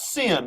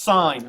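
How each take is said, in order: First: The vowel sounds like the one in 'it'. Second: The vowel sounds like the one in 'eye'. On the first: The speaker calls it wrong. "not sin" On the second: The speaker calls it right. "it's pronounced sine"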